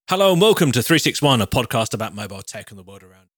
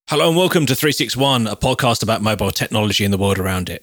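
First: It is said with more lively energy. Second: It is said with fairly low energy.

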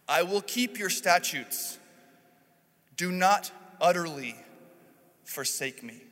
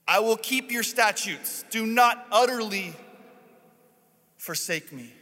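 First: It is read plainly, without pleading. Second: It is read as a terrified, begging plea.

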